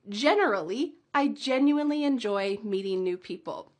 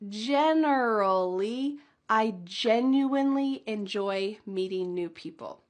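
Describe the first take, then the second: First: The sentence is said at a fast pace. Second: The sentence is said at a slow pace. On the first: "Can you speed it up with me?" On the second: "Let's say it a little bit slow"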